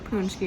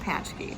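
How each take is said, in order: First: The first syllable sounds like punch. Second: The first syllable sounds like patch. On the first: "not a punchki" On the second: "and not a patchki"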